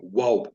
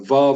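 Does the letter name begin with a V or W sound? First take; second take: W; V. First: It begins with a W sound. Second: It begins with a V sound. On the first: Only a minority sect still pronounces it this way. "you may see it spelled W A W" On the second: "to pronounce it with a V"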